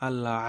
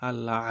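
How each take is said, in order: No difference in how they are said.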